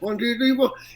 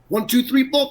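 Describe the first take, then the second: First: The consonants are soft and barely pronounced. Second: Every consonant is pronounced clearly and crisply. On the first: The speaker calls it wrong. "instead of" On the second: The speaker calls it right. "I want you to enunciate. Like I want to hear your consonants"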